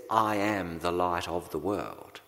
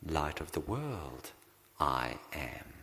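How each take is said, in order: First: Said in the usual way. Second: Pause, then "I am" set apart, low and weighty; stress on I AM. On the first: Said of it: "The emphasis in that statement". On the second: Shown as a demonstration. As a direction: let "I am" land slowly as the point. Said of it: "The emphasis is on the "I am".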